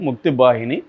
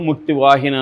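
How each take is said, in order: First: The second word begins with a B sound. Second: The second word begins with a V sound. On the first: This is how Bengali speakers say it. "వాళ్ళు బెంగాలీలు అన్ని వాను బాగా పలుకుతారు" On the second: This is how Telugu speakers would say it. "మనం తెలుగులో ముక్తి వాహిని అని పిలవచ్చు"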